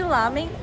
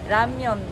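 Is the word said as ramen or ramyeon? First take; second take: ramen; ramyeon. First: The word is said as two syllables, ramen. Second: The word is said with a y-glide, ramyeon. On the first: This is the local everyday name. "aqui a gente chama de ramen" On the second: This is the original pronunciation. "na pronúncia mesmo é ramyeon"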